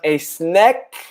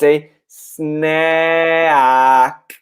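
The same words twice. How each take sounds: First: The vowel in snack sounds Italian, not open. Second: The vowel in snack is wide and open. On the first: The speaker calls it wrong. "It's not a snack in Italian" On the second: The speaker calls it right. "So you have to open your mouth"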